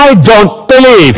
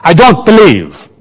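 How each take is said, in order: First: Higher, louder mocking echo of her words; sing-song mocking imitation; mocking mimicry. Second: Said in the usual way. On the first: A narrator's reading. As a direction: parrot her line back to tease. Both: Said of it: "he mimicked".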